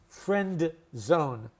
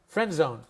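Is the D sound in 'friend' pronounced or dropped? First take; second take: pronounced; dropped. First: The D at the end of friend is pronounced. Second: The D at the end of friend is dropped. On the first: The speaker calls it wrong. "we don't pronounce it friend zone" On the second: The speaker calls it right. "the ghost D... no D is pronounced"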